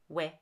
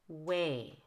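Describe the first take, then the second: First: The vowel is a single unchanging sound. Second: The vowel glides through two parts. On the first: The speaker calls it wrong. "not way" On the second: The speaker calls it right. "needs to have the two parts to the long A"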